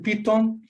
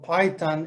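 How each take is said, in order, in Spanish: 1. La palabra se dice con sonidos al estilo español. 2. La palabra se dice con sonidos al estilo inglés. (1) "usted va a decepcionar totalmente a la persona" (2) "la palabra es Python o Python en inglés"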